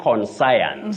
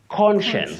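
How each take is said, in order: First: The ending sounds like 'science'. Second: The ending sounds like 'shuns'. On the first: The speaker calls it wrong. "but don't say conscience" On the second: The speaker calls it right. "You say conscience"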